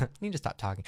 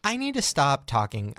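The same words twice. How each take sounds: First: Softer, laughing it out. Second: Said in the usual way. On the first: Real, not acted. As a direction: giggle through the self-reproach.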